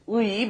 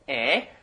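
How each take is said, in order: First: The vowel is a gliding 'ui' sound. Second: The vowel is a plain 'e' sound. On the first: This is the original form of the particle. "The original pronunciation is 의" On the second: This is how people commonly say it. "since that's very hard to pronounce, people say 에"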